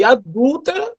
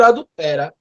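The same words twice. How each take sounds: First: "adúltera" with the stress on -dúl-; stress on the second syllable. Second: "adultera" with the stress on -te-; stress on the third syllable. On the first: Teacher showing the right stress of "adúltera". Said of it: "trocou a sílaba tônica de adúltera". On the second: Teacher showing the wrong stress on "adultera". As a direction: say "adultera" as the verb, a-dul-TE-ra. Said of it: "trocou a sílaba tônica". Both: Shown as a demonstration.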